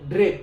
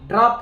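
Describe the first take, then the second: First: The vowel sounds like a front 'eh'. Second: The vowel sounds like an open 'ah'. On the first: The speaker calls it right. "কই ড্রেপ" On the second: The speaker calls it wrong. "ড্রাপ হইলে গলত যাব"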